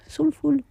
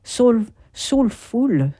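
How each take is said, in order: First: "soulful" said higher, as sol-ful with a falling end; retry "soulful" pitched up, more sure of it; a higher, quicker retake of "soulful"; second English try. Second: Slow, careful "soulful" said as sol-ful; a first, hesitant go at "soulful"; careful English try. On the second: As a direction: spell out "Soul, soulful" slowly, testing the English. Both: Shown as a demonstration. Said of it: "Est-ce que je l'ai dit bien? Non, peut-être pas".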